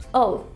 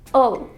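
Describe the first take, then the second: First: It is said quickly, reduced to an 'ul' sound. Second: It is said quickly, reduced to an 'ul' sound.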